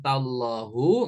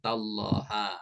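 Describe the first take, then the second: First: The word ends with a u vowel. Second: The word ends with an a vowel. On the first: "nggak boleh" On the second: "nggak boleh"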